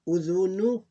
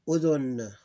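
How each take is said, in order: First: "Udhunu" higher and louder, ending on u; full vowel ending. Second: "udhun" stopping on n; sukoon ending. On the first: Teacher reading the word in full, vowel pronounced. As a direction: say "Udhunu" with the last u sounded. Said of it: "We pronounce it like this". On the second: Teacher showing the sukoon ending case, vowel dropped. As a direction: say "udhun" with no final u. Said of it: "This is sukoon ending case". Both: Shown as a demonstration.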